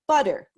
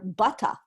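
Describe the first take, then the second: First: It is said in the speaker's own accent. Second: It is said in a London accent. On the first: "like me" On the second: "like people in London"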